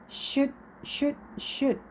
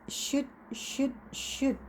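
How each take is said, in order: The two takes are said the same way.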